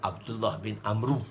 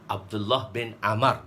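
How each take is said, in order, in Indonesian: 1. Nama belakangnya diakhiri dengan bunyi 'ru'. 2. Nama belakangnya diakhiri dengan bunyi 'ar'. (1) "bukan Abdullah bin Amru. Salah" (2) "Kita baca dia Amar"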